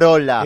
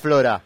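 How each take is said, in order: First: The r comes before the o. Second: The r comes after the o. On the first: The speaker calls it right. "Es frola porque viene del italiano frola" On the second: The speaker calls it wrong. "no se dice pasta flora"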